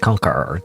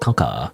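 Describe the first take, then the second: First: The final r sound is pronounced. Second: The final r sound is dropped. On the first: The speaker calls it wrong. "you don't say conquer" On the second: The speaker calls it right. "You say conquer"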